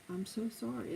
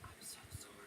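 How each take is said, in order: First: Softer, soothing apology; softly apologetic. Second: Barely audible whisper; whispered apology. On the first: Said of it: "you keep lowering your voice". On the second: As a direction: drop all the way to a whisper to calm them. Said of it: "you just keep lowering your voice". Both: Shown as a demonstration.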